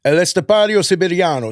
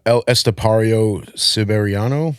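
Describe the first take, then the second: First: High, tapped-r Italian flourish; Italian accent. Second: Slow, unrolled American pronunciation; American accent. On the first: Shown as a demonstration. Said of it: "with an Italian accent now". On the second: Real, not acted. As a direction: sound out the Spanish name in a plain American accent. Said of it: "I said that in the whitest way possible".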